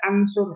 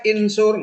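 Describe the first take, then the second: First: The word begins with an a vowel. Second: The word begins with an i vowel. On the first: "nggak boleh ansur" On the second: "Nggak boleh insur"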